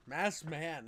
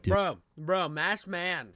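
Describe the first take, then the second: First: Said in the usual way. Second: Loud excited call for attention. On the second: Real, not acted. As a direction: shout it across the room to grab a friend. Calling out to get attention.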